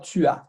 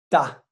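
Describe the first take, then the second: First: It is said as two separate syllables. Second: It is said as one merged syllable. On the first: "Ela não fala tu as" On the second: "ela fala tá"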